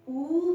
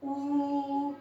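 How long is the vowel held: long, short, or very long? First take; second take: long; very long. First: The vowel is held about twice as long. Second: The vowel is drawn out for a long time. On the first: "ऊ बोलने में दो मात्रा का समय लगा" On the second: "ये जो खिंचाव है शब्द का, स्वर का"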